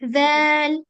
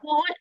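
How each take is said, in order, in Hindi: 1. यह अक्षर हल्का बोला जाता है, पतली आवाज़ के साथ। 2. यह अक्षर भारी बोला जाता है, मोटी आवाज़ के साथ। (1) "ये लाइट लेटर है" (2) "आपने जैल को हैवी कर दिया, वॉल नहीं"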